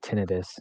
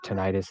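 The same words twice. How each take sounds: First: The word is said in its medical pronunciation. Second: The word is said in its everyday pronunciation. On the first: This is how medical professionals say the word. The speaker calls it right. "is actually tinnitus, if you want to pronounce it correctly" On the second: This is how most people say the word. The speaker calls it wrong. "the medical term for tinnitus"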